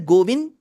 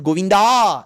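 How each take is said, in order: First: The name ends without any final vowel. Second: The name ends with a drawn-out final vowel. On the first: "It is neither Govind" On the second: "nor Govinda"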